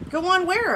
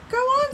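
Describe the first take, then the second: First: Higher-pitched asking back; puzzled question. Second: Very high-pitched prodding command; urging. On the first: Tiger looking up at the lion, questioning. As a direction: query it, pitched up on "go on". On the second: Lion standing by urges the tiger, prodding. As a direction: prod the other one on, high. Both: A narrator's reading.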